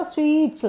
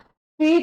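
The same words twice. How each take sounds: First: "स्वीट्स" closed with a ts sound; plural ending sounded. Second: Said in the usual way. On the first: Shown as a demonstration. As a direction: give "स्वीट्स" as the correction, final s audible. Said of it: "स्वीट नहीं होता". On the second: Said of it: "नहीं होता".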